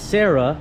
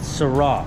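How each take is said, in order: First: It does not sound like que sera's 'sera'. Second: It sounds like 'sera' in que sera sera. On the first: This is how most people say it. The speaker calls it wrong. "Everyone calls it a Sarah" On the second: This is how the name is really meant to be said. The speaker calls it right. "it is pronounced Sarah, like like K Sarah Sarah"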